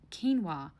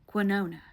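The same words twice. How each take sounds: First: Said in the usual way. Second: "quinona" with an extra n before the final a; mispronounced quinoa. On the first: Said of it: "pronounced quinoa". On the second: Retold or imitated. Mocking the date's food order, mispronounced "quinona". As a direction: say "quinona", imitating his botched quinoa. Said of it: "this man sells insurance and pronounced quinoa quinona".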